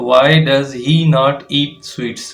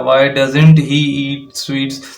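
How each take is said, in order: First: The negative is said in full, does not. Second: The negative is contracted to doesn't. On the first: This is the formal form. "जो formal English है" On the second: This is the casual spoken form. "ये जो contractions हैं, reductions हैं"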